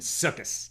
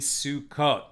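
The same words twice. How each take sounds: First: It is said in an Ashkenazi pronunciation. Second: It is said in a non-Ashkenazi pronunciation.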